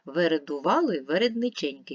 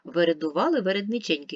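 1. Її читають швидше. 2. Її читають найшвидше. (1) "Давайте швидше спробуємо" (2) "Ще швидше"

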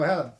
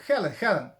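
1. Ім'я починається з дзвінкого звуку g. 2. Ім'я починається з придихового звуку h. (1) "А я казав Гелен" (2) "Чи як правильно? Хелен"

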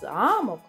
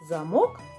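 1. Наголос на першому складі. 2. Наголос на другому складі. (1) "а замок – будівля" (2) "Замок – предмет"

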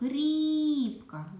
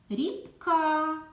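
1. Голосний «i» протягується. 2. Приголосний «k» протягується. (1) "Звук «і» голосний" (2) "звук «к»"

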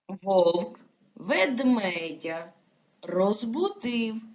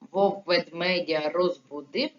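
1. Рядок вимовляється в повільному темпі. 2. Рядок вимовляється в швидкому темпі.

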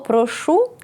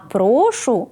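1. Наголос на останньому складі. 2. Наголос на першому складі. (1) "з наголосом на останній склад" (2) "з наголошеним першим складом"

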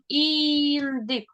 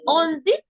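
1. Слово починається зі звуку 'і'. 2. Слово починається зі звуку 'о'.

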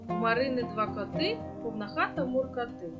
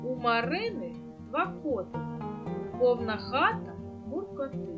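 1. Рядок читають швидким темпом. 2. Рядок читають повільним, звичайним темпом.

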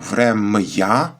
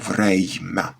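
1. Звук «й» іде одразу після «м». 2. Звук «й» іде одразу перед «м». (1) "Було «врем'я», «м-й»" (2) "«м» та «й» помінялися місцями і стало «врем'я»"

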